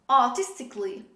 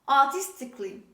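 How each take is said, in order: Both takes have the same delivery.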